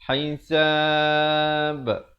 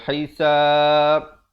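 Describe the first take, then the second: First: The final b is released with a bounce. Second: The final b stops flat without a bounce. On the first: The speaker calls it right. "Dan diberikan pantulan" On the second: The speaker calls it wrong. "tak ada pantulan. Nah, itu tak betul"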